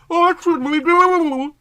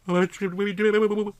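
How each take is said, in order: First: Slow, much higher, louder anxious plea; fretting. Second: Said in the usual way. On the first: Acted. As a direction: wring your hands over every word. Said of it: "fretted Callie". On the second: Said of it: "Callie asked".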